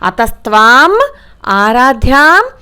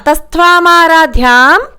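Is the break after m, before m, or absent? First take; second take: after m; no break. First: The break falls after the m sound. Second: The words run together without any break. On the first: "అలా అయినా చదవాలి" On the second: "అలాగైనా చదవాలి"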